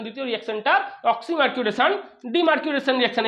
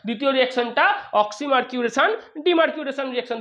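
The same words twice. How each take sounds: First: Slow dictation. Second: Said in the usual way. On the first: Shown as a demonstration. Teacher dictating to students taking notes, paused and chunked. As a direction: split into chunks with pauses so students can write. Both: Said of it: "একটু note করে নিস".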